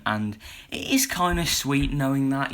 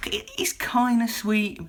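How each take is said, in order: First: Said in the usual way. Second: "it is kind of sweet" whispered, slow and breathy; whispered aside. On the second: Real, not acted. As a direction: hush it like a fond secret. Whispers the repeated line.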